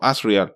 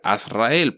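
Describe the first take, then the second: First: The ending is not a separate 'el' sound. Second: The name ends in a clear 'el' sound. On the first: This is how most people say the name. The speaker calls it wrong. "mucha gente lo pronuncia, o todo el mundo en realidad que lo ha escuchado lo pronuncia como Azrael" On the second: The name is an angel's name, so it ends in -el. The speaker calls it right. "tiene que terminar en, a- en él"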